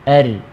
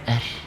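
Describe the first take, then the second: First: The final r is fully voiced, without breath. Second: The final r ends with a breathy release. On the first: The speaker calls it right. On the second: The speaker calls it wrong.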